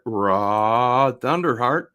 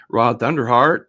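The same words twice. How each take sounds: First: Loud, higher, slowly stretched name; drawn-out name call. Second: Loud, higher announcer-like call; calling out a name. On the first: Streamer to viewer, drawing out the name loudly. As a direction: stretch the name out, half speed. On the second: Streamer to viewer, calling out the name loudly. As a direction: belt out the name. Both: Pretend.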